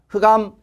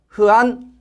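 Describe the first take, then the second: First: The word ends with an m sound. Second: The word ends with an n sound. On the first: This is the Korean reading. "흑암은 우리의 발음으로 흑암이지 않습니까?" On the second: This is closer to the Chinese reading. "암은 대부분 니은으로 되니까 흑안이 되죠"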